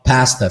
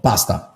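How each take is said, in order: First: Pasta is said with an American-style English accent. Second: Pasta is said with an Italian accent.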